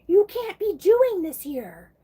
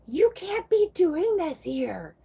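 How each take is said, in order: First: Even higher and louder, slow furious scold; angry and mad. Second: Put-on high, slow, scolding old lady; angry and mad. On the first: Retold or imitated. Old lady scolding the petition woman, louder and higher in anger. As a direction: repeat it louder, really losing it. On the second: Imitating the old lady at the post office, slow high anger. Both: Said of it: "And angry and mad".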